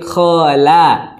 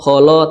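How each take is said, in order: First: The second syllable sounds thin and open, like la. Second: The second syllable sounds thick and rounded, like lo. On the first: The speaker calls it right. "la-nya tipis" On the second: The speaker calls it wrong. "la bukan lo"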